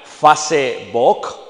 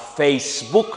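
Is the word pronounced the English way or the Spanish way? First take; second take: Spanish; English. First: It is read letter by letter as Spanish. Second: It is pronounced as in the original English. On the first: The word is read as if it were native. The speaker calls it wrong. "si la leyésemos en español correctamente sería Facebook y no hace sentido" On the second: The word keeps its original pronunciation. The speaker calls it right. "transliteran la palabra a Facebook"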